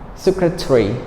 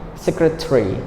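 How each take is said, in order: First: The ending is squeezed into one short syllable. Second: The ending is squeezed into one short syllable.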